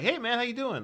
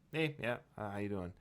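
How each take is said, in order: First: The greeting sounds warm and friendly. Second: The greeting sounds cursory and offhand.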